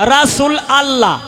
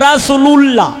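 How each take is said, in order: First: The ending is pronounced as allah. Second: The ending is pronounced as lullah. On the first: "আবার অনেকেই কয় রাসূল আল্লাহ" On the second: "আবার অনেকেই কয় রাসূলুল্লাহ"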